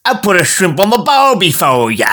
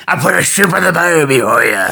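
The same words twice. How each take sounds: First: Higher, badly faked Australian; Australian accent slipping towards pirate; attempted Australian accent. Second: Hammed-up pirate voice. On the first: Host trying Australian once more, mock Australian accent. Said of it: "That's like a pirate". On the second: Host showing what a pirate is, pirate voice. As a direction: growl it like a cartoon pirate. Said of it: "a pirate is".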